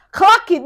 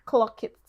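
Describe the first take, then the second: First: "Clock it." called out much higher and louder; "Clock it." shouted high for emphasis; emphatic higher shout. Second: Said in the usual way. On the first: Shown as a demonstration. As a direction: hammer home "Clock it." as a loud punchline.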